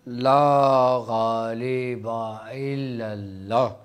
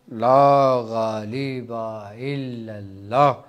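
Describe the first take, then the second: No difference in how they are said.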